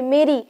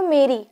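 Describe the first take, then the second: First: मेरी said again, stressing मे; teacher repeating the word. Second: मेरी with the weight on मे; teacher stressing the syllable. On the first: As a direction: mark मे in मेरी for the class. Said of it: "तो यहाँ पे मे है". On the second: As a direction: lean into मे of मेरी. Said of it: "तो जोर दे रहे हो ना इस शब्द पे". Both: Shown as a demonstration.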